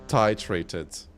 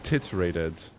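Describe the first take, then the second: First: The first syllable sounds like 'tie'. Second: The first syllable sounds like 'tit'. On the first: "Tie, titrated" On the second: "Why does it literally say tit?"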